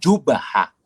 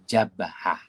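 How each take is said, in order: First: The first vowel is u. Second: The first vowel is a. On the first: The speaker calls it wrong. "Jangan dibaca dengan jubhah" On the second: The speaker calls it right. "Dibaca dengan baris atas"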